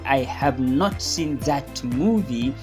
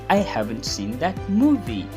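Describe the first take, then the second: First: The verb and not are said separately. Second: The verb and not are joined together. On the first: "Instead of saying" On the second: "you say"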